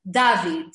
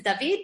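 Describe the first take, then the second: First: "David" as DA-veed, first syllable punched, falling; stress on beginning. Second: "David" as da-VEED, second syllable stressed; end stress. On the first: Retold or imitated. Imitating how people call her husband, "David" stressed first. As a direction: hit the DA of "David" and drop off. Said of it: "people are always emphasized the beginning". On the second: Shown as a demonstration. Teacher giving husband's real name, "David" stressed at the end. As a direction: put the weight on the VEED of "David". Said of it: "you emphasize the end of the syllable".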